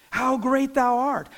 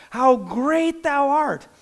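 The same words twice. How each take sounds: First: Slow, lifted singing of the chorus line; sung, lift it like a hymn, slowly and reverently; half-sung hymn chorus. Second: Sung, higher, louder and very slow, swelling hymn line; sung, let the chorus soar and broaden; fuller sung chorus. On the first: A preacher sings the chorus to the congregation, slow and uplifted. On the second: A preacher sings the chorus climax to the congregation, loud and swelling. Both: Acted. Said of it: "you know what it says?".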